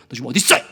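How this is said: It sounds angry and judging.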